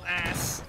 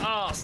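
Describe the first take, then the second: First: The vowel is a short flat 'a'. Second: The vowel is a long 'ah' with an r. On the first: The speaker calls it wrong. "not ass" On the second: The speaker calls it right. "It's pronounced arse"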